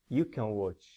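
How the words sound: The word 'can' is weak and unstressed. The speaker calls it right. "Positive and question. No stress"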